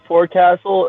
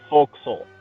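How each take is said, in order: First: It is said in full as fore-castle. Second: It is said shortened, like folk-sul. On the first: The speaker calls it wrong. "It's spelled forecastle" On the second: The speaker calls it right. "It's pronounced forecastle"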